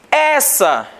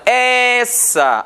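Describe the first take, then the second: First: Said in the usual way. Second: "Essa" with the first E held long; long, sustained first vowel in "Essa"; stress on first syllable. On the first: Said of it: "a sílaba mais forte". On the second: Shown as a demonstration. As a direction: stretch the E of "Essa" to show the strong syllable. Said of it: "a sílaba mais forte é a do é".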